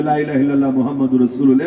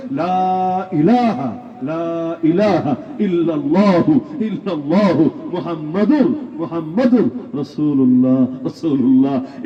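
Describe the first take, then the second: First: Fast and run together, the way most Bengalis mumble লা ইলাহা ইল্লাল্লাহ মুহাম্মাদুর রাসূলুল্লাহ; sloppy everyday recitation. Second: Slow and deliberate, every sound of লা ইলাহা ইল্লাল্লাহু মুহাম্মাদুর রাসূলুল্লাহ drawn out clearly; careful correct recitation. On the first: Preacher mocking how ordinary people rush the kalema, quick and slurred. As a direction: rattle off লা ইলাহা ইল্লাল্লাহ with slurred, careless sounds. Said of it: "স্বাভাবিকভাবে বাঙালি কেমনে বলবে".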